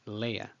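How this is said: The vowels glide together like lay-uh.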